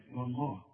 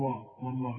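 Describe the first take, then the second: First: والله said softer, falling, with a clear light waw; correct pronunciation. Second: Student's faulty والله; mock wrong reading. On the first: Shown as a demonstration. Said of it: "لا، واو،". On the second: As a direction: imitate the mistaken والله. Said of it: "فما تقولش بقى".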